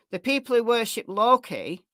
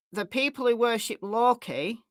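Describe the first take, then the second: No difference in how they are said.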